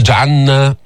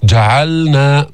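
First: "جعلنا" with ل merged into ن; teacher showing the error; wrong merged lam. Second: "جعلنا" slow with ل clearly before ن; clear lam, slow. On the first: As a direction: say jaʕanna, lam swallowed. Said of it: "ما تقول". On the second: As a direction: sound the lam in "جعلنا" fully. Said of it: "تبين". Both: Shown as a demonstration.

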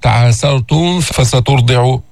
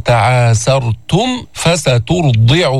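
First: تعاسرتم with its final m blurred into the f of فسترضع; wrong demo, unclear m in تعاسرتم before فسترضع; mistaken ikhfa. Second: تعاسرتم closed on a crisp m, then فسترضع; slow chant, distinct m in تعاسرتم before فسترضع; clear meem before fa. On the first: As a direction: hum the m of تعاسرتم straight into فسترضع. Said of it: "حتى ما يصير إخفاء، حتى ما تطلع معك". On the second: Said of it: "من نظهر الميم عند الفاء". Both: Shown as a demonstration.

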